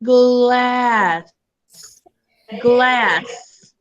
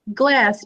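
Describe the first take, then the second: First: "Glass" stretched out sound by sound; slow blend. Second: Said in the usual way. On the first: Shown as a demonstration. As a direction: draw "Glass" out slowly, blending each sound. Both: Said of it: "Now we're gonna blend it together".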